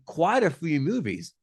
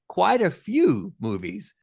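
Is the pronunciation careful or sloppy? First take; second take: sloppy; careful. First: The words are pronounced sloppily and unclearly. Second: The words are pronounced carefully and clearly. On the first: The speaker calls it wrong. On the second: The speaker calls it right.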